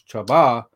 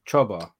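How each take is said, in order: First: The stress is on the second syllable. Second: The stress is on the first syllable. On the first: The speaker calls it wrong. "not Chaba" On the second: The speaker calls it right. "The accent's in the beginning. So in the first accent, it's like Chaba"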